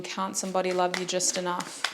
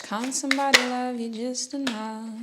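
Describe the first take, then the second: First: Said in the usual way. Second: Sung, break into the song's hook; lightly sung refrain, unaccompanied. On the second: Real, not acted. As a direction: sing it higher, holding the last word. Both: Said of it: "there's a hook that just plays".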